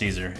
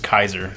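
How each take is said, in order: First: It begins with a soft S sound. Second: It begins with a hard K sound. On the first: The speaker calls it wrong. "it's not pronounced Caesar" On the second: The speaker calls it right. "It's Kaiser. ... C is a hard, C sound"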